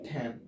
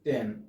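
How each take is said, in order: First: The t is strongly aspirated. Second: The t is plain and unaspirated. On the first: The speaker calls it right. "এটা হচ্ছে কি টেন" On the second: The speaker calls it wrong. "আগে আমরা বলতাম কি টেন"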